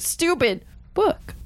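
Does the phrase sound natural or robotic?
robotic. It is said with flat, robotic, spliced-sounding inflection. The word was recorded separately and spliced in. The speaker calls it wrong.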